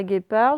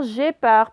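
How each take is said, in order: First: "guépard" starting with a hard g, as in "gare". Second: "gépard" starting with a French "j" sound; soft G. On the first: Teacher showing pupils why U is needed, hard G in "guépard". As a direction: begin "guépard" with a hard g, not zh. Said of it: "Donc, pour faire guépard". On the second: Teacher showing pupils what a missing U does, soft G in "gépard". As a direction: begin "gépard" with zh instead of a hard g. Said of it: "si je mets pas de U". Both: Shown as a demonstration.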